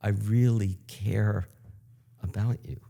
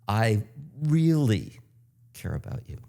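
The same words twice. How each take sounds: First: The stress is on "care". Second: The stress is on "really".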